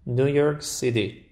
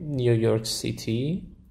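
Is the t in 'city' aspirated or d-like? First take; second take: d-like; aspirated. First: The t in city sounds like d. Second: The t in city has a puff of air. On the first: This is how English speakers say it. "تشون شبیه د میشه، اصلا هواش کاملا گرفته میشه" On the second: This is how Persian speakers say it. "ما میگیم"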